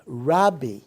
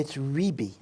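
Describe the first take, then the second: First: The first vowel sounds like a. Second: The first vowel sounds like i. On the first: This is the usual traditional reading. The speaker calls it wrong. "Rabbi Akiva" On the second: This is the historically correct form. The speaker calls it right. "Ribi is the correct pronunciation"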